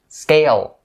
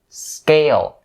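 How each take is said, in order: Both takes have the same delivery.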